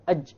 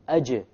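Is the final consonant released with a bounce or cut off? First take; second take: cut off; bounce. First: The final j is cut off with no bounce. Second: The final j is released with an echoing bounce. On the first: The listener cannot tell what letter is there. The speaker calls it wrong. "If you don't have a qalqala" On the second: It signals a silent qalqala letter to the listener. The speaker calls it right. "You need the qalqala"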